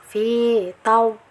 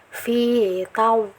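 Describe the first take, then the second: Both takes have the same delivery.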